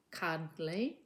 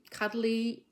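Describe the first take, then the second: First: CUDDLY in two beats, CUD then LY; split into syllables. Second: Said in the usual way. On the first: Shown as a demonstration. Teacher counting syllables for a child, CUDDLY said beat by beat. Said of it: "two syllables". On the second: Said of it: "how many syllables?".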